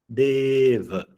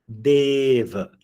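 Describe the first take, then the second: The two takes are said the same way.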